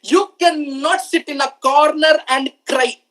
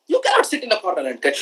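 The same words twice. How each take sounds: First: Each word spaced out and weighted; slow it down so every word lands on the audience; slow emphatic. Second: Fast, clipped-off repeat of the line; quick repeat. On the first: Speaker driving the point home to listeners, slow and heavy. Motivational speaker repeating key line. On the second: Speaker tossing the line back at listeners, fast and offhand. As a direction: rattle it off as a quick reminder. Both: Shown as a demonstration.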